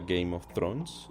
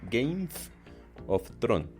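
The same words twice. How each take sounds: First: The title is pronounced in the speaker's usual way. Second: The title is pronounced in an imitated, mocking way.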